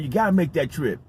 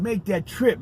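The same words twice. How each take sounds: First: Said in the usual way. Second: "trip" stressed, higher pitch, falling; emphasizing. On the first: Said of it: "I'm always emphasizing". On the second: Real, not acted. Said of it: "I'm always emphasizing, make that trip".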